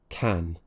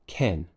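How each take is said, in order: First: The vowel is wide open, like ah. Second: The vowel is closer, like eh. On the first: The speaker calls it right. "Keep that tongue pushed down, keep the mouth nice and open" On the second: The speaker calls it wrong. "they would say ken... it's sounding more like an eh"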